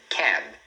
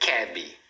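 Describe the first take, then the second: First: It ends sharply on the final consonant. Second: It ends with an added vowel sound. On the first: The speaker calls it right. "é uma palavra de uma sílaba" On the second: The speaker calls it wrong. "e não cab"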